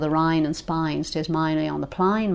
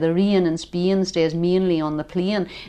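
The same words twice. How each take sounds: First: It is spoken in an Australian accent. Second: It is spoken in an Irish accent. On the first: "it goes from A to I in Australia" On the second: "The Irish, where I come from, would say"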